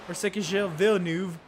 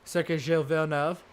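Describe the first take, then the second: First: It is said with an American accent. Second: It is said with French-style sounds, like British commentators.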